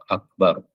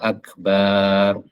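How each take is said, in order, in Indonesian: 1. Vokal setelah b itu pendek. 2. Vokal setelah b itu dipanjangkan. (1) "Kalau dibaca waqaf akbar gitu" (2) "Allahu akbar atau Allahu ikbar, enggak boleh. Karena itu berarti memanjangkan ba"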